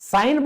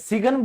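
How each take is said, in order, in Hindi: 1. 'g' silent है; 'g' की आवाज़ नहीं है। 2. 'n' से पहले 'g' की आवाज़ बोली जाती है। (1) "साइन बोलते हो" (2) "सिगन बोलते हो"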